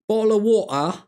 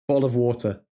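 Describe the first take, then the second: First: It is said in an exaggerated British accent. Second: It is said in a milder, less exaggerated accent. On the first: "pronounced in the British way" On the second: "I say it like bottle of water"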